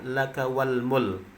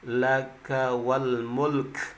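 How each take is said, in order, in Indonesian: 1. Kata terakhir berakhir tanpa bunyi k. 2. Kata terakhir berakhir dengan bunyi k. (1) "sering kesalahan ketika mengucapkan" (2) "Yang benarnya ... diakhiri dengan kaf"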